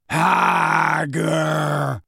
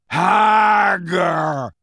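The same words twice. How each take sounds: First: Slow, drawn-out monster call; giant's call. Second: Loud, long, high giant bellow; insistent giant shout. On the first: Grawp the giant searching, long drawn-out call. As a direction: stretch both syllables as a lumbering giant. Giant calls out one word. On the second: Grawp searching among centaurs, insistent drawn-out shout. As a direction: shout it insistently, both syllables stretched. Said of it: "he said again, more insistently". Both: A narrator's reading.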